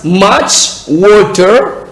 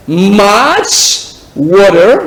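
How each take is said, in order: First: Said in the usual way. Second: "water" with an American flapped t and r; accent américain. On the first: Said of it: "Ou soit". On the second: Shown as a demonstration. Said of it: "Là, c'est accent américain". (« water » à l'américaine)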